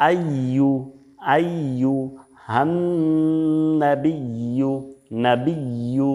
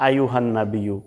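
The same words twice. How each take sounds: First: Slow "আইয়ুহান নাবিয়্যু" as ayy-yuhannn-nabiyy-yu; doubled ya. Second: Hurried "আইয়ুহান নাবিয়্যু" as ayuhan-nabiyo; ya left unpronounced. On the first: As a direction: lean on each y and hold the n. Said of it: "বলতে হবে". (ইয়া স্পষ্ট করে টেনে উচ্চারণ) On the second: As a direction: slide through "আইয়ুহান নাবিয়্যু" with single short y. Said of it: "ইয়ার উচ্চারণটা করি না". (ইয়া বাদ দিয়ে ভুল উচ্চারণ) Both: Shown as a demonstration.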